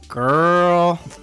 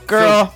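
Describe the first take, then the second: First: It sounds gossipy and judging. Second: It sounds annoyed and reproachful. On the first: Someone else is being judged. "we're talking shit about somebody else" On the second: The listener did something wrong. "You're like shamed. You're kind of pissed off at me"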